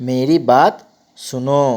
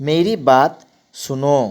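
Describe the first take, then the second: The two takes are said the same way.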